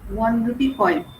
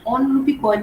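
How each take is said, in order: First: The word 'one' starts with a W sound. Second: The word 'one' starts with a plain vowel. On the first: The speaker calls it right. "वन बोलते हैं" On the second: The speaker calls it wrong. "ऑन रूपी coin नहीं बोलते हम लोग"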